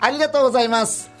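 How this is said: It is said in a bright, cheerful tone.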